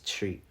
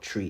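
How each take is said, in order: First: The word starts with a sh-like sound. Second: The word starts with a plain t sound. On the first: The speaker calls it right. "It's tree. You know, the sh sound" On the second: The speaker calls it wrong. "It's not tree"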